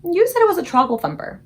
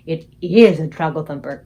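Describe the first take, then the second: First: Put-on a high, louder little girl correcting him; Sophie objecting. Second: The exasperated BFG insisting to Sophie. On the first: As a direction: pick him up on the word. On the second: Acted. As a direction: stress on "is", low and loud. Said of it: "cried the exasperated B F G".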